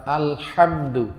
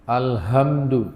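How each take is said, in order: First: Alhamdu with a breathy throat ḥa, slowly; correct ha in alhamdu. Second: Alhamdu with a plain Indonesian h, slowly; wrong plain h. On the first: Shown as a demonstration. Teacher shows the congregation alhamdu with a throat ḥ. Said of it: "makharijul huruf ha pada kata". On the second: Retold or imitated. Teacher imitates an imam saying alhamdu with a plain h. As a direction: say alhamdu with an ordinary h. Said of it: "saya pernah dengar imam bacanya".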